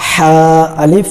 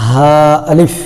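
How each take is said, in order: First: "হা" as the heavy Arabic throat h, held long; big ha. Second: "হা" as a light plain h, held long; small ha. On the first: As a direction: push "হা" from the throat, then short "আলিফ". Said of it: "বড় হা অর্থাৎ". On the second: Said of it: "এটা কিন্তু ছোট হা". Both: Shown as a demonstration.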